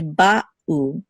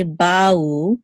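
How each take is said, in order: First: Ba'u split by a clear catch: ba, u; distinct syllables. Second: Ba'u run into one gliding sound, like "bow"; slurred together. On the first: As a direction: put a short pause between ba and u in ba'u. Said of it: "pause between the two syllables". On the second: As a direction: slide ba'u together with no break. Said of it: "We don't want to slur these together". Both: Shown as a demonstration.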